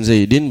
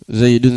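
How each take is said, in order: First: The word ends with the vowel i. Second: The word ends with the vowel u. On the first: The word is in the genitive case. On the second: The word is in the nominative case.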